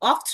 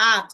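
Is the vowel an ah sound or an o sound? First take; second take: o sound; ah sound. First: The vowel is an o sound. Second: The vowel is an ah sound. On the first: The speaker calls it wrong. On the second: The speaker calls it right.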